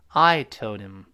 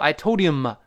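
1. 'him' 很轻，几乎听不见。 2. 'him' 是用全力说的。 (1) "非常轻，几乎听不清的一个" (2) "不要用力气，不要读I told him"

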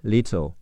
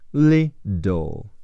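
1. 中间的辅音是清晰的 t 音。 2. 中间的辅音听起来像 d。

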